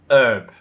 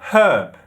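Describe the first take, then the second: First: American accent, without any h sound. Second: British accent, with an audible h sound.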